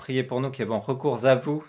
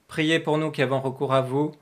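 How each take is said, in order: First: The words are said with an extra liaison. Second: The words are said without the extra liaison.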